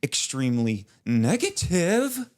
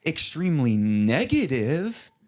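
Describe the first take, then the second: First: Slow, high, stretched-out delivery; theatrical Dwight line. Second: Slow, drawn-out, high theatrical delivery; theatrical Dwight line. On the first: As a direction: overplay the line like a TV actor. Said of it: "It's, like, very theatrical". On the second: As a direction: ham it up like an over-acted TV line. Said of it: "says it in, like, a theatrical way". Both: Retold or imitated.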